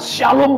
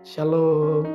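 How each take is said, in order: First: The greeting sounds strong, loud and lively. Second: The greeting sounds weak, low and limp. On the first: The person radiates strength and positive energy. The speaker calls it right. "Pasti atmosfer sebuah kekuatan, ada energi positif" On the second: The person seems powerless and burdened with problems. The speaker calls it wrong. "wah ini orang lemah, tak berdaya, lunglai"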